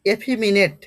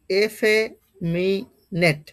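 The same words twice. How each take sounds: First: Said in the usual way. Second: এফেমিনেট slowly split as e-fe, mi, net; each part of এফেমিনেট said separately; syllable-by-syllable pronunciation. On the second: Shown as a demonstration. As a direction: sound out এফেমিনেট with long gaps. Teacher sounds out the word.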